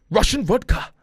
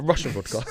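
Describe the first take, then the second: First: Loud, high mock Russian accent; hammed-up Russian accent; terrible Russian accent. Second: Said in the usual way. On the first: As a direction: belt it out in a bad Russian accent. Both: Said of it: "that was a terrible accent".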